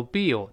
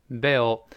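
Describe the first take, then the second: First: "Bill" with a long ee vowel, like bee-oh; mispronounced Bill. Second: "Bill" with an open eh vowel, like beh-oh; correct Bill. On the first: Teacher warns learners off a wrong reading, mispronounced Bill with ee. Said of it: "不要读Bill". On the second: Teacher models the word for learners, Bill with an open eh. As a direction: say "Bill" with eh, not ee. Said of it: "而是发诶". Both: Shown as a demonstration.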